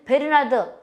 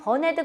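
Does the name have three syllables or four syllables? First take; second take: four syllables; three syllables. First: The name is said in four syllables. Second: The name is said in three syllables. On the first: This is the older schoolbook reading of the name. "옛날 우리가 발음할 때는 초등학교 때는 베르나드" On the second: This is closer to the actual pronunciation of the name. "발음하게 되면 버네드 그러기도 하는데"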